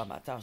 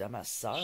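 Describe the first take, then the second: First: Amateur with a t sound, the word she does not mean; amateur, a plain t in the middle; wrong word amateur. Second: Amasseur with a clear s sound, set against amateur; amasseur, said clearly with s; careful amasseur. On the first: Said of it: "je dis pas amateur". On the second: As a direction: stress the s in amasseur. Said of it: "je dis amasseur". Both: Shown as a demonstration.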